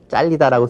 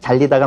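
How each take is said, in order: First: The word starts with a tense consonant. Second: The word starts with a plain consonant. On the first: The speaker calls it wrong. "잘리다라고 쓰지만" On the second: The speaker calls it right. "역시 잘리다가 맞겠고요"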